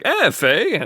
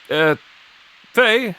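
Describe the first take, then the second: First: It sounds casual and friendly, like a call. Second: It sounds hesitant, with a pause before the name. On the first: The speaker calls it right. "like a let's go, friend" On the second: The speaker calls it wrong. "I thought there was like a pause"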